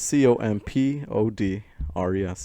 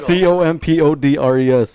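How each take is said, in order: First: The letters are spelled out slowly. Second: The letters are spelled out quickly. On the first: The speaker calls it wrong. "I don't like how he's saying slow" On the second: The speaker calls it right. "Can you say it faster?"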